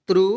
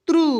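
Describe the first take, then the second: First: त्रु with a brief u; short vowel. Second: त्रु with a long, high oo; long vowel. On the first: Teacher reciting the त्र series to learners, short vowel. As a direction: keep त्रु short and lower. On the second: Teacher reciting the त्र series to learners, long vowel. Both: Shown as a demonstration. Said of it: "Hindi बारह खड़ी सीखेंगे".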